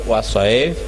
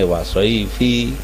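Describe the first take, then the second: First: The word ends on the final consonant, with no vowel. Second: The word ends with an added final i vowel. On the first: The reciter stops at a pause mark. The speaker calls it right. "waqaf kudu mandeg" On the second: The reader does not know the pause rule. The speaker calls it wrong. "santrine durung roh"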